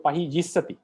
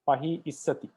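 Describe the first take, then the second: First: The second word begins with a y sound. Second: The second word begins with a plain i sound. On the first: This is how a learned speaker says it. The speaker calls it right. "we have to give a Pahi Yissati" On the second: This is how ordinary speakers usually say it. The speaker calls it wrong. "a normal speaker, ordinary speaker, uh, would pronounce it as"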